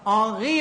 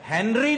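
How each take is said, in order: First: Silent h, nasal vowel, and a throaty r. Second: The h, n and r are clearly pronounced. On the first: The speaker calls it right. "आंगी होता है" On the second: The speaker calls it wrong. "हेनरी नहीं होता"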